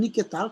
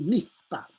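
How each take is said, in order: First: A short vowel is heard between k and t. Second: The k runs straight into t without a vowel. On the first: The speaker calls it wrong. "Bukan niketal" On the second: The speaker calls it right. "tapi niktal"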